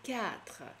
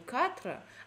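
First: The first consonant is softened, like ky. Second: The first consonant is hard, plain k. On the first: The speaker calls it right. "а «кятра»" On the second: The speaker calls it wrong. "не «катра»"

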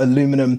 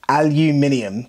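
First: It is said the North American way, four syllables. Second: It is said the British way, five syllables.

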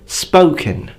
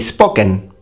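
First: The 'o' is a gliding double vowel. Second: The 'o' is a pure single vowel. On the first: This is the native English pronunciation. "many vowels in English are double. For example" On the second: This is how an Italian speaker says it. "An Italian would say"

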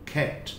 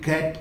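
First: The first k sound has a soft breathy puff. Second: The first k sound is plain, without aspiration. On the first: The speaker calls it right. "हल्का सा soft ख" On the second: The speaker calls it wrong. "Specially कैट कहने के बजाय"

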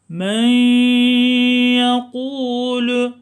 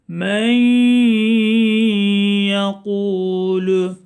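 First: The n merges into y without a nasal hum. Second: The n merges into y with a held nasal hum. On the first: The speaker calls it wrong. "hata olanı söylüyorum" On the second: The speaker calls it right. "Doğrusunu tekrar okuyorum"

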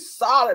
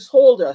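First: The word is said with an American pronunciation. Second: The word is said with a British pronunciation. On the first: "And in America, you say" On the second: "you solder things in Britain"

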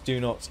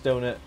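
First: It is said as two separate words. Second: It is blended into one word like 'donut'. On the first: The speaker calls it right. "it's do not" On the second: The speaker calls it wrong. "everyone says donut"

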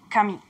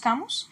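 First: The name is said in a French style. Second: The name is said in a local Spanish style. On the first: Specialists consider this the correct form. The speaker calls it right. "la pronunciación correcta es Camus" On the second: This is how people here say it. The speaker calls it wrong. "Acá le decimos Camus"

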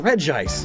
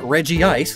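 First: Only one vowel sound follows Reg. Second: Two vowel sounds run together after Reg. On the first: The speaker calls it right. "They did the same thing with Regice" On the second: The speaker calls it wrong. "It's not Regice, though that is what it says in the anime"

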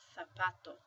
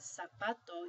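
First: The word begins with a th sound. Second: The word begins with an s sound. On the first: "you pronounce it zapato" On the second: "instead of pronouncing this as zapato"

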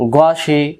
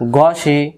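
The two takes are said the same way.

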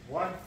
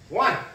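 First: It is called calmly at a relaxed volume. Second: It is called loudly with raised intensity. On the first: No aggression or speed is being asked for. "I'm nice and chill" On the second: More effort and intensity is being asked for. "Now I raise my voice, my intensity"

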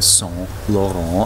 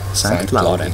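First: The name is pronounced the French way. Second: The name is pronounced the German way. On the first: The speaker calls it wrong. "den müsste man Saint Laurent aussprechen. Tun sie das nicht" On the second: The speaker calls it right. "Der heißt wirklich St. Laurent"

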